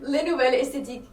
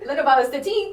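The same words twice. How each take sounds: First: It is said with a French accent. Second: It is said with an English accent.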